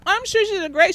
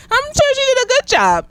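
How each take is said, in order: First: Said in the usual way. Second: Sarcastic. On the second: Real, not acted. Sarcastic praise of Judy Newmar.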